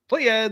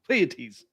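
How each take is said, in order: First: The name sounds like the two words play ads. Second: The name sounds like the three-syllable word Pleiades. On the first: "Play ads or Pleiades" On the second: "is the correct uh, pronunciation of it"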